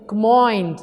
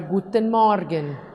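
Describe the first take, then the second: First: It is said in the shortened regional dialect form. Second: It is said in the full standard German form.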